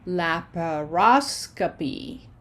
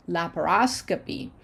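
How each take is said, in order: First: "Laparoscopy" slowly, la-pa-ros-co-py, leaning on "ros"; slow, segmented teacher's "Laparoscopy"; broken into syllables. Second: Said in the usual way. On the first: Shown as a demonstration. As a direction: sound out "Laparoscopy" one syllable at a time. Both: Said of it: "the O in cope changes".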